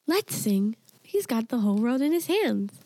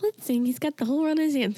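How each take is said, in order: First: Lightly voiced speech device, little girl; a hint of a synthetic child's voice; imitating computer girl voice. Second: Higher, faster mock speech-device little girl; computer girl voice. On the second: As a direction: play the odd synthetic child's voice. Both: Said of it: "supposedly a little girl voice".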